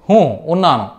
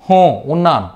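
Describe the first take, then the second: No difference in how they are said.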